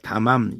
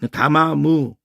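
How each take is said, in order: First: The word ends with a closing consonant sound. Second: The word ends with an added vowel sound. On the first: "세 번째가 받침이 되니까 담암 이래도 좋고" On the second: "담아무 뭐 이렇게 발음해도 좋고"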